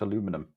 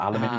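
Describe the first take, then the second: First: It is said in an American way. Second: It is said in a British way.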